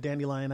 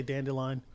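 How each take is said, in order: First: "dandelion" with an ee in the middle; dandy-lion pronunciation. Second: "dandelion" with an L in the middle; dandle-lion pronunciation. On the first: Telling co-hosts his usual word, "dandelion" said dandy-lion. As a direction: say "dandelion" as DAN-dee-lion. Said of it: "I've always said dandelion". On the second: Granting that other people differ, "dandelion" said dandle-lion. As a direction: say "dandelion" as DAN-duh-lion. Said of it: "I know people say dandelion". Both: Shown as a demonstration.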